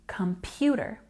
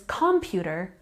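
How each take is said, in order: First: The stress is on the middle syllable. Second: The stress is not on the middle syllable. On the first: The speaker calls it right. "We have a stress on this part, pew" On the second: The speaker calls it wrong. "we're probably not going to understand what that person means"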